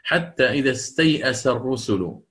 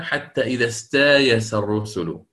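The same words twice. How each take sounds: First: استيأس recited with the hamza; original reading. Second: استايس with a long alif, no hamza; Bazzi reading. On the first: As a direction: read استيأس the Hafs way. (استيأس بالهمزة) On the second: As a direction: read حتى إذا استايس الرسل. (استايس بالألف) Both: Shown as a demonstration. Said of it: "كيف قرأها".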